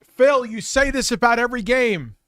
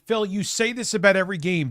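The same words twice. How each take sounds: First: Loud, high-pitched scolding of Phil; bursting out at Phil, yelling; exasperated yell. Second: Louder, pressing scold at Phil; frustrated rant. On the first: Streamer yelling at Phil over his game complaints, exasperated. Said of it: "be like". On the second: Streamer scolding Phil again, heated but less loud. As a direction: push it at him like a lecture. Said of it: "I just wanna". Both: Retold or imitated.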